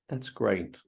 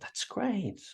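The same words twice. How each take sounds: First: It is said flatly, with no emphasis. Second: It is said with lively, strong emphasis. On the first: It shows no real emotion. The speaker calls it wrong. "in a neutral tone" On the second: It shows real enthusiasm. The speaker calls it right. "we need some more emphasis there"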